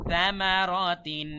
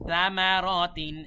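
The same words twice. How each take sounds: The two takes are said the same way.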